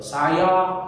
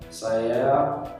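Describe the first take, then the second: First: The word is articulated clearly with open vowels. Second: The word is mumbled, its a sounding like e. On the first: The speaker calls it right. "jelas dalam mengucapkan seperti e, saya berbicara seperti ini" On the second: The speaker calls it wrong. "gak jelas. A itu kerasa kayak E"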